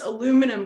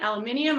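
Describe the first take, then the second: First: The word is said in a Canadian accent. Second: The word is said without a Canadian accent. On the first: The speaker calls it wrong. "sorry, Canadian accent" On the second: The speaker calls it right. "I'm saying it right now"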